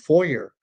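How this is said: It is pronounced the American way. "I was more Americanized at that point"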